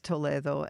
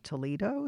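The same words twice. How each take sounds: First: The name is said the Spanish way. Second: The name is said the American way. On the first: It refers to the city in Spain. "But the Spanish city is Toledo" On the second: It refers to the city in the United States. "in the U.S. people might pronounce it Toledo"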